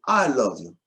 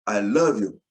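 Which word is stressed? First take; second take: I; love. First: The stress is on "I". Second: The stress is on "love".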